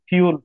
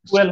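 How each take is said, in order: First: It starts with a 'fyoo' sound. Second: It starts with a plain 'foo' sound. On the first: The speaker calls it right. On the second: The speaker calls it wrong. "ফুয়েল না"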